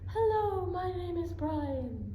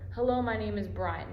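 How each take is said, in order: First: It is spoken in a high head voice. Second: It is spoken in a low chest voice. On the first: "higher pitch, or it's called a falsetto" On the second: "keep your hand right here and just say that"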